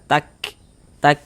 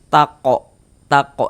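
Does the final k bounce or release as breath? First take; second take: breath; bounce. First: The final k releases with flowing breath. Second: The final k bounces with an added vowel. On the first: The speaker calls it right. "ada nafas yang mengalir ketika kita mengucapkannya" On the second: The speaker calls it wrong. "Jangan dibaca tako tako, jangan jangan salah salah"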